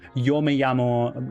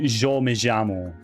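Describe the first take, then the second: First: The 'y' and 'll' sound like English y. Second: The 'y' and 'll' sound like zh. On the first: This is the common Spanish pronunciation. "the Y and the double L sound... It's a y" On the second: This is the speaker's Argentine dialect. "in the dialect that I speak, that is simply changed to a, like a zh sound"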